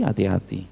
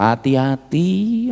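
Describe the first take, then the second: First: Hushed warning. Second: "Hati-hati" higher, slow and stretched, rising at the end; drawn-out warning. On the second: Preacher warns the congregation, slow rising "Hati-hati". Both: Shown as a demonstration. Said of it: "hati-hati saudara".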